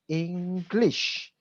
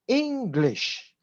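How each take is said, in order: First: The stress is on the second syllable. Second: The stress is on the first syllable. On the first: The speaker calls it wrong. "you stress on the word lish" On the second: The speaker calls it right. "The way to pronounce it is English"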